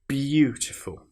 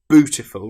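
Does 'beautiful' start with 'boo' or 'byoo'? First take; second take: byoo; boo. First: It starts with a 'byoo' sound. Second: It starts with a plain 'boo' sound. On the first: The speaker calls it right. "we have the bew" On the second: The speaker calls it wrong. "Instead of beautiful"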